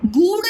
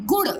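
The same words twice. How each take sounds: First: गुड़ misread as "good", long oo; wrong long vowel. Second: गुड़ said short, "gud"; correct short vowel. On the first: Teacher rejecting a reading, long high "good". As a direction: stretch गुड़ high into "goo-d". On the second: Teacher correcting the reading, short "gud". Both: Shown as a demonstration. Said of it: "गुड़ नहीं".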